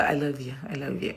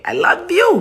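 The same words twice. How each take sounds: First: Very quiet, low murmured sign-off; hushed little declaration of love; soft, affectionate. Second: High, rising affectionate sign-off; playful, gushing. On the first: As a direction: say it tenderly, almost to yourself. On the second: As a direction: send it out brightly with a big upward lift. Playful louder repeat at sign-off. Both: Real, not acted.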